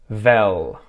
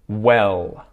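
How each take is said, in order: First: The word starts with a V sound. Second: The word starts with a W sound. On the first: The speaker calls it wrong. "mispronounce it with a V" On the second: The speaker calls it right. "five words that start with the W sound"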